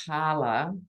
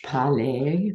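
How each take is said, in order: First: Parler said the Australian way, PAR-ler with a flat ending. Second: Parler said the French way, par-LAY with no final r. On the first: Real, not acted. Host apologizing for saying Parler in Australian. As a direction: Parler in plain Aussie speech, like the word parlour. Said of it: "Sorry about the Australian accent". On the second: Shown as a demonstration. Host showing the French original of parler. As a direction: parler in French, stress on the last syllable. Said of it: "meant to be the French parler".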